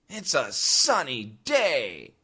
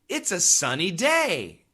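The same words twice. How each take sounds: First: The voice sounds unhappy and reluctant. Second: The voice sounds happy and pleased. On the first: The speaker dislikes sunny days. "you should be able to understand that I don't like sunny days" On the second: The speaker likes sunny days. "you can hear that I like it. I'm very happy"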